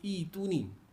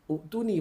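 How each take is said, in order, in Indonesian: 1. Dimulai dengan i panjang tanpa hentian. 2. Dimulai dengan u diikuti hentian. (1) "bacanya Ituni" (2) "banyak ada orang baca Uktuni"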